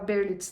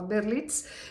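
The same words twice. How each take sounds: First: The name is said with a Brazilian Portuguese pronunciation. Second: The name is said with a French pronunciation. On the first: This is how people say it in Brazil. "no Brasil fala Berlitz" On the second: This is how people say it in France. "na França fala Berlitz"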